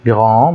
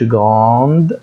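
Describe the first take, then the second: First: It ends in a nasal vowel with no d. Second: It ends with a pronounced d sound. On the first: The speaker calls it right. "بقول grand grand بخنف" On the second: The speaker calls it wrong. "ما بقولش grande"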